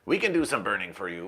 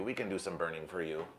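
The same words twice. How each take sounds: First: Said in the usual way. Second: Softly repeated offer; hushed repeat. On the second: Shown as a demonstration. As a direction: lower and much softer. Repeats line two ways.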